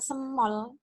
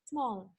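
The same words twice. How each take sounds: First: The word is split into two beats. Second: The word is said in one beat. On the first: The speaker calls it wrong. "Bukan small" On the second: The speaker calls it right. "tapi small. Satu kali ucap"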